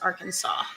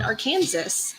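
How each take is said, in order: First: The final S sound is silent. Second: The final S sound is pronounced. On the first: This is how locals say it. The speaker calls it right. "Do you enunciate the last S in Arkansas? No, you don't" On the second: This is how outsiders say it. The speaker calls it wrong. "In which case you call it Arkansas, and you're as wrong as I am"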